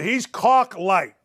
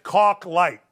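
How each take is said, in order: First: Caulk light stretched out very slowly; slow emphasis. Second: Said in the usual way. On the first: Shown as a demonstration. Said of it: "He's Caucasian light".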